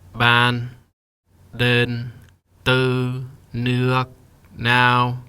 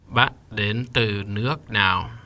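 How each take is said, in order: First: Each word is said flat without its tone. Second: Each word is said with its full tone. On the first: "Let's say each word without the tone" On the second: "Dot, up, down, up, down"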